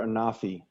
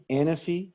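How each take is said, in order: First: Anafi said as uh-NAH-fee, stress on the middle syllable, falling; second pronunciation. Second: Anafi said as AN-uh-fee, stress on first syllable, rising; first pronunciation. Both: Shown as a demonstration. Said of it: "Is it Anafi or Anafi?".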